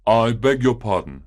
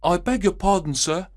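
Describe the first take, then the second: First: A lightly voiced upset gentleman; a hint of a worried grown man barging in; visitor's voice. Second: Put-on high, boyish page boy apologising; polite young page boy, much higher than the narrator. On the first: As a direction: apologise as the flustered visitor. Agitated visitor bursts in. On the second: Page boy greets returning Holmes.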